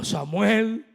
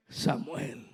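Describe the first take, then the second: First: Raised-voice call of a name. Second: Low, hushed call of a name. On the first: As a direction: call the sleeper by name, loudly. Acts God calling Samuel by name. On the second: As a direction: murmur the name to a sleeper. Second, softer call to Samuel. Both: Acted.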